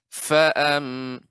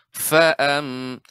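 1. Bunyi awal f terdengar lebih penuh dan dipanjangkan. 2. Bunyi awal f terdengar lebih penuh dan dipanjangkan.

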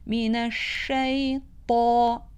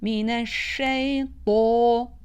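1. Ünlü açık ve nettir, ağız geniş açık. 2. Ünlü boğuk ve 'o' gibi yuvarlaktır. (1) "fetha sesinde özellikle ağzın açılması gerekir" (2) "Do sanki o sesiymiş gibi çıkar. Bu şekilde okuyuş da yanlış bir okuyuştur"

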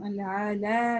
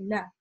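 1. Гласная растянута, долгая. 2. Гласная краткая. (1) "Мы не тянем а-ля-а-ля, как некоторые читают неверно" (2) "И она короткая"

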